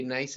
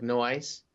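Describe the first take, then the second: First: Said in the usual way. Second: "nice" stretched into "no ice"; Australian "nice". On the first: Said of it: "Do you ever notice how Australians". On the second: Shown as a demonstration. Explaining how Australians say nice, "no ice" in Australian vowels. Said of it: "it sounds like no ice".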